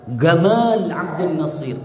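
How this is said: The name starts with a hard g sound.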